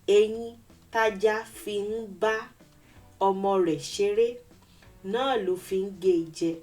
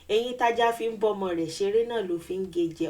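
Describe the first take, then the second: First: It is said at normal speed, words kept apart. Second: It is said quickly, with words run together.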